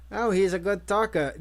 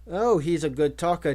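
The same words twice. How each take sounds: First: Mild parrot-like mimicry of a woman; lightly mocking copy of her voice; mimicking her voice. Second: Said in the usual way. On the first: A narrator's reading. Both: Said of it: "mimicking her voice".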